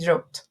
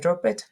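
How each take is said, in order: First: The ending is said as a short T sound. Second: The ending is said as a separate extra syllable. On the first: The speaker calls it right. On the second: The speaker calls it wrong.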